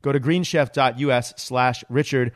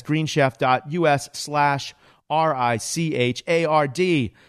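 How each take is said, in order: First: Said in the usual way. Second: Slow, letter-by-letter spelling of "R I C H A R D"; spelling out the web address slowly. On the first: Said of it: "That's greenchef dot U S slash R I C H". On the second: Shown as a demonstration.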